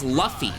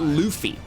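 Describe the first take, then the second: First: The first vowel is a short 'uh' sound. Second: The first vowel is a long 'oo' sound. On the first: The speaker calls it right. "That spelling should make it sound as Luffy" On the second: The speaker calls it wrong. "not Luffy. If it was L U U F Y, then sure"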